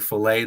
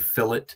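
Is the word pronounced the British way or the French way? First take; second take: French; British. First: The word is pronounced the French way. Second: The word is pronounced the British way. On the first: The speaker calls it right. "instead of saying fillet" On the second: The speaker calls it wrong. "they'll intentionally mispronounce certain French words"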